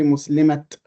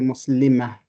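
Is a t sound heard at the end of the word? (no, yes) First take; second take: yes; no. First: The word ends with an audible t sound. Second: The word ends on a vowel, no t sound. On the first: The speaker calls it wrong. "we didn't say Muslimat" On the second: The speaker calls it right. "we say Muslima"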